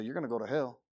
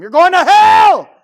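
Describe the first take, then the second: First: Lower, gentle matter-of-fact warning; restrained, conversational delivery; kind telling. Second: High, drawn-out full-force scream; huge condemning holler; yelling at people. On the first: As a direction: break hard news to someone calmly. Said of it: "we can be kind in how we present it". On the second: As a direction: scream damnation at them, slowly. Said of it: "go yelling at people". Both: Shown as a demonstration.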